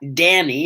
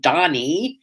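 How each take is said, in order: First: The first vowel sounds like the one in cat. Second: The first vowel sounds like the one in cot. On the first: The speaker calls it wrong. "Nobody could ever spell it right or say it right. She was always Danny" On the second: The speaker calls it right. "I'm Donnie"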